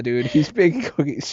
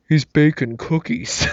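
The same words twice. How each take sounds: First: Mildly mocking, unimpressed; a touch of audience sarcasm; sarcastic. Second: Slow mock stage whisper from the back row; lightly imitating a guy trying to whisper; a hint of the moviegoer whispering to his friend; loud-whispering moviegoer. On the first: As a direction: roll your eyes at the line. Sarcastic audience reaction retold. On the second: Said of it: "really deep, uh, throaty kind of a voice".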